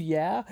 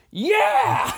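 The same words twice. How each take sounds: First: Said in the usual way. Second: Very loud, high whooping yell; imitated scream. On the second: Imitating John's reaction to the healed man, screamed cheer. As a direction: scream it out in modern-style celebration.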